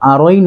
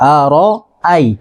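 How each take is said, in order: First: The vowels are run together into one syllable. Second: The vowels are kept apart as separate syllables. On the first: The speaker calls it wrong. "অনেকে এই জায়গাটা ভুল করে" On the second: The speaker calls it right. "এখানে আর আই হবে"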